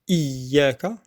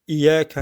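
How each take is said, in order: First: The y sound is doubled and held longer. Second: The y sound is short and single. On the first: The speaker calls it right. "bien prononcer le ya mushaddada" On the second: The speaker calls it wrong. "On dit iyyaka na'budu parce que c'est plus facile"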